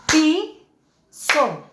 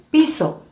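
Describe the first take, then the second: First: "piso" held and split, pi... so; syllable by syllable. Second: Said in the usual way. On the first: Shown as a demonstration. Teacher counts beats of voice, syllable by syllable. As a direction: say "piso" as two separate beats. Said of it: "Entonces decimos". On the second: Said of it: "Tenemos aquí la representación".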